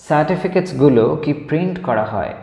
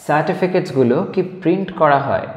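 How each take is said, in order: No difference in how they are said.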